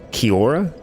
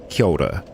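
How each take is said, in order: First: The r sound is said without a roll. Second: The r sound is said with a roll. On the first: The speaker calls it wrong. "Some people say it Kia ora" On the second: The speaker calls it right. "the proper pronunciation is Kia ora. it's got a little bit of a roll in there"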